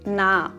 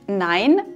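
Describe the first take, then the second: First: The vowel is a single plain 'a'. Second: The vowel glides like 'ei'.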